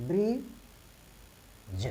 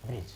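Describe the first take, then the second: First: "ब्रिज" drawn out, bri then j, D silent; pronunciation demo. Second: Said in the usual way. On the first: Shown as a demonstration. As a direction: stretch "ब्रिज" slowly with no D sound. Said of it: "यानी कि ऐसे पढ़ेंगे". ("ब्रिज" को खींचकर, डी के बिना बोलें) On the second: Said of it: "क्या हो गया?".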